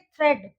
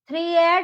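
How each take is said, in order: First: The vowel is a single short e. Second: The vowel is split into ee and a. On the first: The speaker calls it right. "यहाँ पे हम इसको कैसे pronounce करेंगे, थ्रेड" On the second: The speaker calls it wrong. "थ्री एड नहीं बोलेंगे हम"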